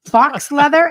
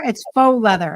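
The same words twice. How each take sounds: First: "Fox" said with a sounded x, loud and higher; mispronounced faux. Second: "faux" said like foe, silent x, loud; correct faux. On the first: Co-host questioning the wrong word, mock mispronunciation of "Fox". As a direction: query "Fox" as if it were the word, loudly. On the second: Shown as a demonstration. Co-host correcting the sewing guy, firm "faux" with silent x. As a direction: correct it firmly to "faux", rhyming with go. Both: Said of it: "It's not fox".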